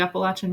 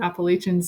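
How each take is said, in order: First: It is said with a Southern pronunciation. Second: It is said with a Massachusetts pronunciation. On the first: "I'm from the South, so I say it differently" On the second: "or Appalachians if you're from Massachusetts"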